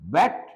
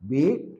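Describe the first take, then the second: First: The vowel is short, as in 'bet'. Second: The vowel is long, as in 'beat'. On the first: It is the past tense. "Past టెన్స్ని మనం బెట్ అని పలకాలి" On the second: It is the present tense. "ఇక్కడేమో బీట్ అనాలి"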